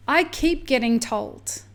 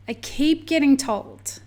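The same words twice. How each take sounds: The two takes are said the same way.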